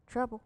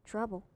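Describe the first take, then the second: No difference in how they are said.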